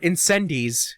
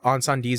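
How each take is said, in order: First: The title is said with an American pronunciation. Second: The title is said with a French-like pronunciation.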